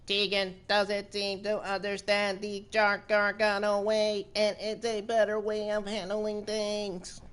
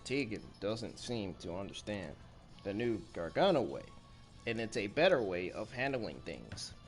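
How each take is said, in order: First: It is said in a robot voice. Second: It is said in a normal voice.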